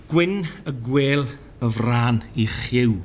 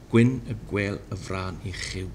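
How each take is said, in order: First: "Gwyn y gwel y fran i chiw" slow, falling at the end; slow Welsh recitation. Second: "Gwyn y gwel y fran i chiw" softer, lower, rising; softer Welsh repeat. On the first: Teacher reciting Welsh proverb, slow and falling. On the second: Teacher repeating Welsh proverb softly, lower. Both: Shown as a demonstration. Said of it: "here are five examples".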